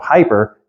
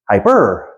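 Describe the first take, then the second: First: The stress is on the first syllable. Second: The stress is on the second syllable. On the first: The speaker calls it wrong. "instead of hyper" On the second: The speaker calls it right. "accent on the second"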